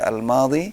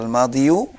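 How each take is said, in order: First: The word ends with a plain 'i' sound. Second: The word ends with an added 'yu' syllable. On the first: The speaker calls it right. "tapi dibaca al-madhi" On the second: The speaker calls it wrong. "tidak dibaca al-madhiyu"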